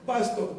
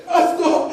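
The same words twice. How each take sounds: First: Said in the usual way. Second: Louder, choked-up call of his name through tears; tearful cry. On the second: Retold or imitated. Preacher calling his pastor through tears. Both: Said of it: "I just started crying".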